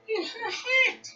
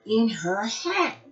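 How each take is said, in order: First: In her hat repeated much higher and slower; mock-shocked repeat for the kids; astonished echo. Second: Said in the usual way. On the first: Shown as a demonstration. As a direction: repeat it in amazed disbelief.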